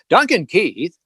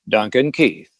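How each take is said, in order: First: The name is said louder, with more excitement. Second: The name is said at a low, calm volume. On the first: The player is advancing the puck toward center ice. "five would be like he's advancing the puck to center ice" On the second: A routine pass is being made in the team's own end. "Three was like a, a normal circle to circle pass in your own end"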